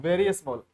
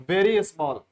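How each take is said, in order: The two takes are said the same way.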